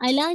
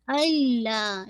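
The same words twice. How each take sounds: First: अला with single l; wrong version. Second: अल्ला with the doubled l held; correct recitation. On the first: Teacher showing the mistaken अला. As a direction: say अला without the doubled l. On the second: Teacher correcting to अल्ला. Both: Shown as a demonstration. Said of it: "अला नहीं ये".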